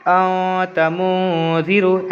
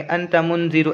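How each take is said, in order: First: "औ तमूजीरू" slowly, n sounds held as nasal hums; ikhfa nasal hold. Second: Said in the usual way. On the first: Shown as a demonstration. Teacher shows how to read with ikhfa, nasal hold. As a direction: stretch "औ" and "मू" through the nose. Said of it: "इख्फ़ा करके पढ़ेंगे". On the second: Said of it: "ऐसे नहीं पढ़ेंगे".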